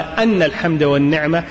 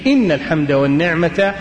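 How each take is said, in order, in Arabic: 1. تبدأ الكلمة الأولى بحركة 'a'. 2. تبدأ الكلمة الأولى بحركة 'i'. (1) "لو فتح الهمزة وقال أن الحمد والنعمة" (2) "ضبطها بكسر الهمزة أولى بالتقديم"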